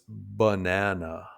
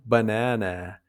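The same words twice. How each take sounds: First: The unstressed vowels are reduced to schwa. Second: Every vowel is pronounced fully and clearly. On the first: The speaker calls it right. "reduces unstressed vowels to schwa" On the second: The speaker calls it wrong. "pronounce every vowel fully"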